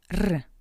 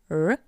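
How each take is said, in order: First: The r is pronounced the Russian way. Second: The r is pronounced the English way. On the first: "In Russian" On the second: "R in English"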